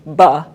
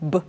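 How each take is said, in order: First: The b sound has an added uh vowel after. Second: The b sound is short, with no vowel after. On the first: The speaker calls it wrong. "as opposed to buh" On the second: The speaker calls it right. "clip those sounds"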